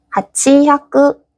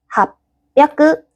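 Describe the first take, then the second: First: A full 'chi' syllable comes before 'yaku'. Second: A doubled 'p' consonant replaces the 'chi' syllable. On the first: The speaker calls it wrong. "근데 하치야크 발음이 불편하네" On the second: The speaker calls it right. "그래서 합야크"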